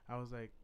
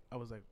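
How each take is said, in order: Both takes have the same delivery.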